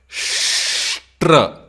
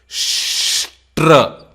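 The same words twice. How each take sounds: No difference in how they are said.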